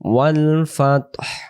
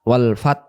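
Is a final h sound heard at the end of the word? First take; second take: yes; no. First: The word ends with an audible breathy h sound. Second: The word ends on t with no h sound. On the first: The speaker calls it right. "আর যদি এখানে দম ছেড়ে দেন" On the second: The speaker calls it wrong. "তখন এই হা অক্ষরটা কোনো উচ্চারণ আসে না।"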